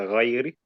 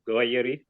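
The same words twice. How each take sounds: First: The first consonant is a throaty gh sound. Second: The first consonant is a hard g sound. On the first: The speaker calls it right. "with a gha" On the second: The speaker calls it wrong. "they'll sound like a ga"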